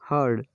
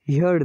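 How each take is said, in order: First: The vowel sounds like the vowel in 'her'. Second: The vowel sounds like the vowel in 'here'. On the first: The speaker calls it right. "यहाँ इसका उच्चारण होगा हर्ड" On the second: The speaker calls it wrong. "हियर्ड नहीं"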